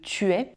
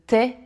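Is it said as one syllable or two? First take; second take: two; one. First: Both vowels are kept, two syllables. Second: The vowel of 'tu' is dropped, one syllable. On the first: "au lieu de" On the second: "élisions qui sont classiques"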